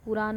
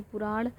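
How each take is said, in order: First: पुराण said as puraan, with a plain dental n; colloquial form. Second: पुराण with a retroflex final n; formal Sanskrit form. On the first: Teacher citing the everyday word to be replaced, colloquial plain n. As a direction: end पुराण on an ordinary n. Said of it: "पुराण नहीं पुराण". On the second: Teacher giving the correct Sanskrit word, retroflex n. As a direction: curl the tongue back for the last n of पुराण. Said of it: "नहीं पुराण". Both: Shown as a demonstration.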